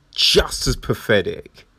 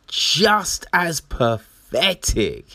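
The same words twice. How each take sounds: First: Said in the usual way. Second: Higher, slow and drawn-out just as pathetic; dragged-out scornful just as pathetic; slow emphatic repeat. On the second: Shown as a demonstration. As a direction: stretch each word of Just as pathetic for scorn.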